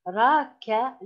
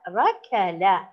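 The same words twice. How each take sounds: First: ركل broken into three syllables, ra, ka, la. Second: Said in the usual way. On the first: Shown as a demonstration. Teacher demonstrating a word to pupils, ركل said syllable by syllable. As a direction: separate each short vowel of ركل with small gaps.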